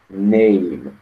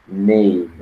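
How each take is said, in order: Both takes have the same delivery.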